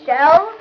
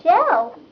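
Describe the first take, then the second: First: Shell? rising in disbelief; scoffing rise on "Shell?"; incredulous echo. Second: Said in the usual way. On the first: Acted. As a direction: ask "Shell?" with a rising, mocking tune. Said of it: "What a stupid name". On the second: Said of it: "Shell? What a stupid name".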